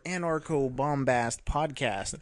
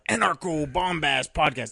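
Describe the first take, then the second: First: It is said plainly, with little energy. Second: It is said grandly, with lots of energy. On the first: "Sans bombast right now" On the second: "say it with some more bombast"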